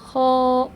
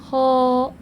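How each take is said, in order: No difference in how they are said.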